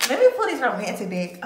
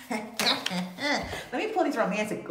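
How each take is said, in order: First: Louder, eager announcement; excited. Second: Drawn out through a chuckle; chuckling, slow. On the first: Tarot reader excited to pull the romantic deck, louder. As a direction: get pumped to pull the cards. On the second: Reader about to pull cards, slow and chuckling. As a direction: ease into it with a laugh. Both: Real, not acted. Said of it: "I just got a little bit excited".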